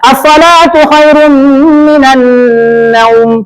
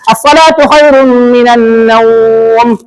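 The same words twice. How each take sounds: First: The vowel in naum is kept short. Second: The vowel in naum is held four beats. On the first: "Boleh dipendekkan"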